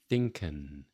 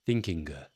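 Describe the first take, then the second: First: It ends in a plain n, without ringing. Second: It ends in a hard, audible g sound. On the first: "with no nasal ring to it" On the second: "with the G pronounced more dramatically than it should be"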